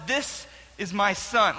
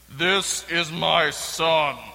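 First: It is said in his normal voice. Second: It is said in a changed, put-on voice.

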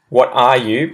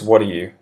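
First: Each word is said fully and separately. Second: The words run together in a shortened form. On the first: "what are you becomes" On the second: "becomes what are you"

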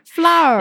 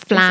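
First: Flour is said the way speakers overseas say it. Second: Flour is said like 'flar', in Singaporean style. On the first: "If you are overseas, it's flour" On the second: "Singlish is flour. Like F-L-A-R"

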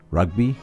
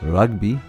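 First: It is said in an Australian accent. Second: It is said in a posh southern English accent. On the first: "if you're Australian" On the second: "by posh English southerners"

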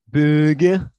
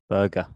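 First: It is said in a Liverpool (Scouse) accent. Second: It is said in the speaker's own English accent.

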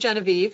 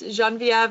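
First: The name is pronounced the English way. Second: The name is pronounced the French way. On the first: "if you speak the English version of my French name" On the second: "my French name"

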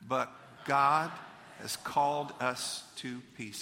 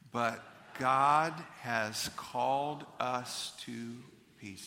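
First: It is said at a normal, quicker pace. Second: It is said at a slightly slower pace.

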